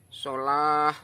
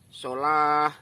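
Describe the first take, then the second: First: The word ends with a breathy h sound. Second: The same.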